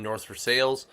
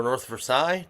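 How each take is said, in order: First: Versailles said "ver-SALES"; local pronunciation. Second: Versailles said "ver-SIGH"; French-style pronunciation. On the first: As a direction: say Versailles the Pittsburgh way, rhyming its end with "sales". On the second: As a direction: end Versailles on a "sigh" sound, silent final letters. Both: Shown as a demonstration. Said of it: "depending on how you say it".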